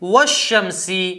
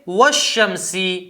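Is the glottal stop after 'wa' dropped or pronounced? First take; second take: dropped; dropped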